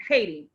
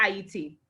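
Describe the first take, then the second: First: Said in the usual way. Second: Haiti said as "Ayiti", no H; Kreyòl pronunciation. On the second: Shown as a demonstration. Host naming her guest's native country, Haiti said as Ayiti. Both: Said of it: "A K A".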